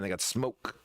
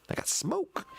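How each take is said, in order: First: Said in the usual way. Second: High-pitched playful echo; squeaky high voice. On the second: Pretend. Repeats line in silly high voice.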